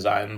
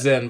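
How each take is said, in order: First: It is said as two syllables, with a long vowel. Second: It is said as one short syllable. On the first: The speaker calls it wrong. "some people say Zion" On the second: The speaker calls it right. "It's Zin"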